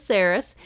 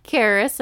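First: "Saris" with a soft S, SAIR-iss; soft-c pronunciation. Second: "Karis" with a hard K, KAIR-iss; hard-c pronunciation. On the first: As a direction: start "Saris" on an s sound. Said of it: "I could pronounce it Saris". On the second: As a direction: start "Karis" on a k sound. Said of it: "you could pronounce it Karis". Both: Shown as a demonstration.

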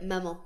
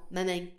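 First: "maman" with a standard French nasal ending; "maman" with no final consonant. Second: "maman" ending in a twangy "eng"; "maman" turned into "mameng"; southern French maman. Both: Shown as a demonstration. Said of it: "southern French accents are so".

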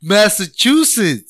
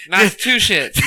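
First: Massachusetts said slowly, mass-uh-CHOO-sits; Massachusetts with a clear choo, mass-uh-choo-sits; correct pronunciation. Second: Massachusetts said mass-a-TOO-shits; Massachusetts with a sh sound, mass-uh-too-shits; mispronounced Massachusetts. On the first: Shown as a demonstration. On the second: Real, not acted. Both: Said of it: "You said Massachusetts".

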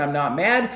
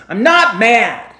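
First: Said in the usual way. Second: Loud, slow I'm not mad, clearly furious; angry denial. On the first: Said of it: "do you believe my actual words". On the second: Shown as a demonstration. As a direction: bark the words to betray the anger. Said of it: "do you believe my tone of voice".

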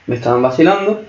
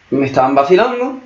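No difference in how they are said.

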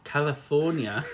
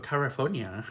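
First: "California" slow and higher, clear L; careful correction. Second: "California" stumbled, first L slipping towards R; tongue-tied slip. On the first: Co-host retrying the fumbled place name, carefully pronounced. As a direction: sound out "California" slowly, laughing after. Repeats the word after fumbling it. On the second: Co-host tripping over Disneyland's location, tongue-tied. Stumbled attempt, then corrected take. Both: Real, not acted.

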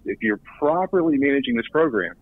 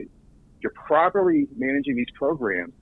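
First: Said in the usual way. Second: "properly" drawn out and pitched high; slow right down and hit "properly" hard; deliberate, high emphasis on the word "properly"; stress on properly. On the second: Real, not acted. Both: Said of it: "I'm gonna emphasize that word properly".

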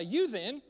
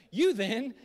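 First: Said in the usual way. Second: Loud, high, hammed-up English accent; grand put-on English accent; mock King James English. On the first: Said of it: "it is what it is". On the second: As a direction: proclaim it like old scripture in mock English. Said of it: "that was the New King James N I V version".

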